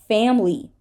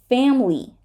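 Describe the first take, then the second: Both takes have the same delivery.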